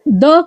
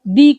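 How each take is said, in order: First: The vowel is a short uh sound. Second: The vowel is a long ee sound. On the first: "द करके भी बोलते हैं" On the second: "दी करके भी बोलते हैं"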